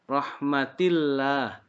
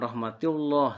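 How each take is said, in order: First: The final syllable is said thin and light. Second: The final syllable is said heavy and full. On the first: The speaker calls it right. "Dibacanya tipis" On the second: The speaker calls it wrong. "Jangan rahmatillah, salah"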